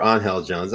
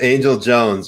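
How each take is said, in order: First: Angel said "ahn-HELL"; Spanish pronunciation. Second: Angel said "AYN-jul"; plain English "AYN-jul" for Angel; English pronunciation. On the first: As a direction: say Angel with an h sound for the g. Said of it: "some people pronounce it Angel". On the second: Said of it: "I think that's how you pronounce it". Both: Shown as a demonstration.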